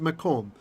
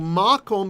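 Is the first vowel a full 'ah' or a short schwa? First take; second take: schwa; full ah. First: The first vowel is reduced to a schwa. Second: The first vowel is a full open ah. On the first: It means a place of something. "that ah becomes a schwa" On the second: It means a place. "a long ah sound"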